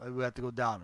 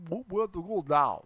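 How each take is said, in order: First: Said in the usual way. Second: Practised Russian-accented phrase; mock Russian accent. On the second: Shown as a demonstration. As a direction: try it out in put-on Russian.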